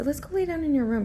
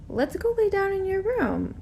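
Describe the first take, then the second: First: Put-on higher, faster coaxing to a toddler; quick coaxing. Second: Put-on higher, sweet coaxing voice to a toddler; coaxing sing-song. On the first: Babysitter nudging the little girl toward her room, quick and bright. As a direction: hurry her along brightly. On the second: Babysitter coaxing a three-year-old to bed, high and sweet. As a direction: lure a little girl to bed sweetly.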